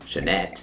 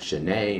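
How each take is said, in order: First: The name is pronounced the English way. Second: The name is pronounced the French way. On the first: "instead of" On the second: "That's why I'm saying these words like they are French"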